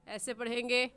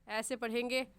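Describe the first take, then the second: The two takes are said the same way.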